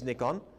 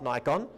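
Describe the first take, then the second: First: The brand name is pronounced the Japanese way. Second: The brand name is pronounced the common English way. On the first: The speaker calls it right. "it is Nikon ... Go to Japan, where where this was born, it's Nikon" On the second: The speaker calls it wrong. "not Nikon. [name] was wrong"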